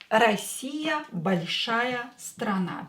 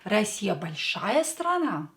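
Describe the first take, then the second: First: It has the intonation of a plain statement. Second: It has the intonation of a question. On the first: Russia is a big country. "A statement" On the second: Is Russia a big country? "By using your intonation"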